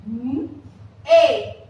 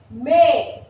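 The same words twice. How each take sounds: First: "M-A" as mmm, pause, ay; "M-A" split into hummed m and a firm ay; sounded out. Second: Said in the usual way. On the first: Shown as a demonstration. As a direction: sound out "M-A" by phonics. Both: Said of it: "how we are going to pronounce it".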